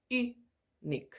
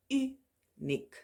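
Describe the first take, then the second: First: "Uniek" said again, higher, as a drill; repeated Afrikaans word. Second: "uniek" said with Afrikaans u, pitched much higher; Afrikaans word. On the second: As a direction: model "uniek" carefully. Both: Shown as a demonstration. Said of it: "the pronunciation when it's used in the beginning".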